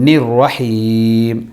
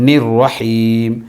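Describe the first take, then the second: The two takes are said the same way.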